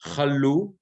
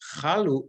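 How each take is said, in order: First: The stress is on the second syllable. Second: The stress is on the first syllable. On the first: The mercy never ended. The speaker calls it right. "milra, that is, the accent is on the second syllable" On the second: The mercy never took effect. The speaker calls it wrong. "Don't say chalu because chalu is to take effect"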